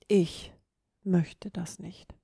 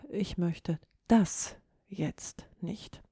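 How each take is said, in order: First: The stress is on the word ich. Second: The stress is on the word das. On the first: It is about me, not about others. "Geht ganz klar auf dich selbst ein und nicht gegebenenfalls auf andere" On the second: The speaker rejects this particular thing, maybe wants another. "Die 3. Form der Betonung"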